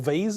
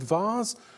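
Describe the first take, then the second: First: It is said with an American pronunciation. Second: It is said with a British pronunciation.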